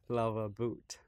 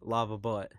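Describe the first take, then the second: First: The name is said with a French-sounding pronunciation. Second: The name is said with a plain English pronunciation. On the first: The speaker calls it wrong. "We are not in France" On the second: The speaker calls it right. "Yeah, there you go"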